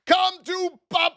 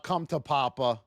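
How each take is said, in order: First: High and loud, reliving the win; triumphant yell. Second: Said in the usual way. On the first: Retold or imitated. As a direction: belt it like the trade just paid off. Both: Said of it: "I might have yelled out".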